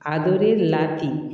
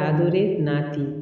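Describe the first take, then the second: First: The last word begins with an l sound. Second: The last word begins with an n sound.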